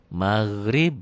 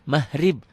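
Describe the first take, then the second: First: The middle consonant is a throaty gh sound. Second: The middle consonant is a plain h sound. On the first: The speaker calls it right. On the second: The speaker calls it wrong.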